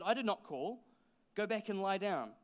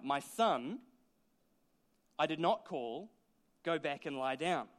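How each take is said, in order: First: It is said in a plain, neutral tone. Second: It is said in a warm, grandfatherly tone.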